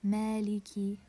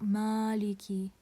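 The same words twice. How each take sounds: First: The first consonant is light, with a lowered tongue back. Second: The first consonant is heavy, with a raised tongue back. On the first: The speaker calls it right. "because it's from the istifal letters" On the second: The speaker calls it wrong. "not maliki"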